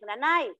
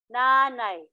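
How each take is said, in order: First: The stress is on the final syllable. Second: The stress is on the second-to-last syllable.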